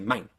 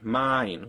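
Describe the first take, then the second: First: The vowel glides quickly to its second part. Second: The vowel glides slowly to its second part. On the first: "where a German one would just say mine. Uh, they go faster" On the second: "In English, you can say, oh, that's mine, mine"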